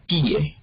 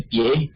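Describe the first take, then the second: First: Pie as PÍ-e, stressed on i; hiatus. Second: Pie as one syllable, stressed e; diphthong. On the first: Teacher giving the form of piar, pie as PÍ-e. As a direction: split pie into two syllables, falling after í. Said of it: "que es de piar". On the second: Teacher distinguishing two words, pie in one syllable. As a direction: say pie as PYÉ, gliding off the i. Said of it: "cómo distinguimos la palabra". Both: Shown as a demonstration.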